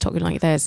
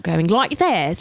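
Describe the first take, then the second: First: Understated British accent; natural, easy British delivery. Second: Caricatured British accent on "like this"; British accent as Americans overdo it; overdone British accent. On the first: Comedian showing her convincing British accent, British accent. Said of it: "I had a British accent on". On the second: Comedian demonstrating what not to do, overdone British accent. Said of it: "the key to having a British accent". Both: Shown as a demonstration.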